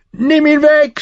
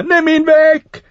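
First: Hoher, lauter Schmerzensschrei; schreiend vor Schmerz. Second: Hoch, laut und langsam gedehnt; langgezogener Schrei. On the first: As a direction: schrei panisch um Hilfe. (der Prinz schreit, weil der Wolf ihn beißt, gellend) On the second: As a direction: zieh den Schrei verzweifelt in die Länge. (der Prinz fleht schreiend, langsam und gellend) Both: A narrator's reading. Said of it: "schrie er".

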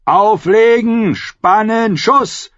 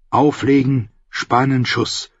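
First: High, drawn-out battle orders; shouted commands. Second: Said in the usual way. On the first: A narrator's reading. Commander drilling archers in battle, shouted commands. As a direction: shout orders across the wall.

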